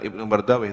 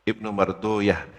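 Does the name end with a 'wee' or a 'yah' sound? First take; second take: wee; yah. First: The name ends with a 'wee' sound. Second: The name ends with a 'yah' sound. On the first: The speaker calls it wrong. "bukan Ibnu Mardawi" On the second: The speaker calls it right. "kalau ulama ahli hadis ... tapi Ibnu Mardoyah"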